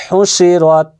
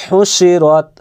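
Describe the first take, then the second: No difference in how they are said.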